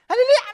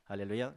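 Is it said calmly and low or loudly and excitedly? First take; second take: loud excited; calm low. First: It is said loudly with raised excitement. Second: It is said calmly in a low voice.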